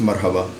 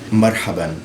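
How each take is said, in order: First: The word ends on a vowel, without n. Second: The word ends with an added n sound. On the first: This is the everyday spoken form. "in Ammiya it's just marhaba" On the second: This is the formal standard form. "in fusha you have tanween"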